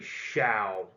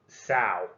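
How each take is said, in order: First: The word begins with an sh sound. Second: The word begins with a plain s sound. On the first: The speaker calls it right. "it's actually Shao, as in shower" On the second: The speaker calls it wrong. "I thought it would be Sao"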